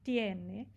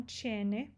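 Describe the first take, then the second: First: "tiene" said as TYEH-neh, no ch; "tiene" with a pure Spanish t; hard t in tiene. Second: "tiene" said as CHEH-neh; "tiene" with a Brazilian ch onset; wrong ch pronunciation. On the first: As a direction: keep the t of "tiene" crisp before the glide. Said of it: "Não tiene, tiene". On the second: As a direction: soften the t of "tiene" into ch. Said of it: "Não tiene". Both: Shown as a demonstration.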